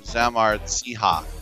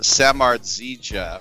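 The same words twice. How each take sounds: First: The 'j' is pronounced as an H sound. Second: The 'j' is pronounced as an English J sound.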